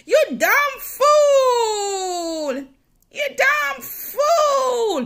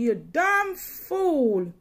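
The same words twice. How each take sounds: First: Much higher and louder, very slow tearful yell; cursed shout. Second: Slow, barely raised mock curse; mild curse. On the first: Retold or imitated. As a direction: hurl the curse at her full force. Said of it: "she cursed me bad". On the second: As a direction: drag the insult out, held back. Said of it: "cursing me".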